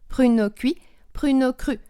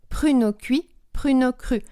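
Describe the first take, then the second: Both takes have the same delivery.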